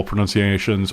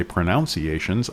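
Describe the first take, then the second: First: Said in the usual way. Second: Pronunciations said as pro-NOUNCE-iations, with the ow of pronounce; own pronunciation. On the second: Shown as a demonstration. Explaining how he says pronunciations, with the pronounce vowel. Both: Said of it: "or as I say".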